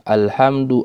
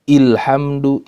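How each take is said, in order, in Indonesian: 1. Kata "alhamdu" diawali vokal a. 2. Kata "alhamdu" diawali vokal i. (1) "harus dibaca fat dengan harokat fat fathah" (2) "tidak dibaca kasra"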